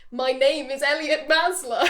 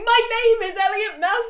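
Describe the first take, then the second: First: Slow, measured game-character introduction; game dialogue line. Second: High, loud mock announcement; Elliot Maslow. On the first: Retold or imitated. Player picks a line to greet everyone, measured introduction. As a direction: read it out slowly as a set line. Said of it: "the dialogue option that you could pick". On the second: Running around the camp introducing himself, loud mock calling. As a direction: call it out fast to the whole camp. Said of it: "He's running around the camp going".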